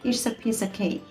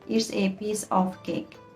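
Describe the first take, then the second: First: The small words are reduced to a schwa. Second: The small words are said fully and carefully. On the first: The speaker calls it right. "তারা fluently বলে" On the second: The speaker calls it wrong. "Native স্পিকার্সরা বলে তারা কিন্তু এভাবে বলে না"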